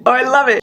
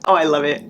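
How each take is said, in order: First: Excited squeal. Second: Said in the usual way. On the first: Real, not acted. Gushing over book.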